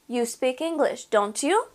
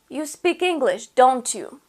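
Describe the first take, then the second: First: The pitch rises at the end. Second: The pitch falls at the end. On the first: The speaker is not sure and is really asking. "So my intonation goes up. The pitch goes up at the end of the sentence" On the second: The speaker is sure and is not really asking. "If you say it like this"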